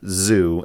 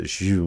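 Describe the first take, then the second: First: The name begins with a plain z sound. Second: The name begins with a blend of sh and z. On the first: The speaker calls it wrong. "it's not just Zoo" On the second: The speaker calls it right. "a cross between an S H and a Z sound"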